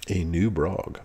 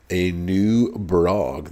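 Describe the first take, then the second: First: Said in the usual way. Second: A new Brog, slow, stretching out "new"; drawn-out, teasing reveal; drawn-out hype. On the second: Real, not acted. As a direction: savor "new" like an announcement. Hyping the new boss.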